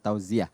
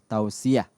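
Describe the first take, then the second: First: The word is articulated unclearly and indistinctly. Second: The word is articulated clearly and distinctly. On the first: The speaker calls it wrong. "bukan tausiah" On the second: The speaker calls it right. "ini harus di-clearkan lagi ya"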